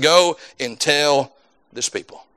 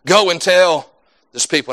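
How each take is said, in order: First: Slowed, softened quote of God's command; slow solemn quote. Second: Said in the usual way. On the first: Shown as a demonstration. Preacher quoting God's command to Isaiah, slow and hushed. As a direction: let it land slow and quiet, like God speaking.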